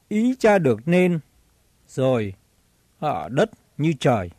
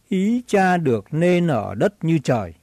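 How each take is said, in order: First: The sentence is broken in two by a pause. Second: The sentence is said straight through without pause. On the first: It sounds like two separate prayers. The speaker calls it wrong. "Thường người đọc câu này hay ngắt ra làm hai" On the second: It is one single request. The speaker calls it right. "ta phải đọc liền không ngắt"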